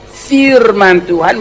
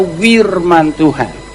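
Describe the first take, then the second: First: The first word begins with an F sound. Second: The first word begins with a W sound. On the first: "kesulitan mengucapkan kata firman Tuhan" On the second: "mereka berkata wirman Tuhan"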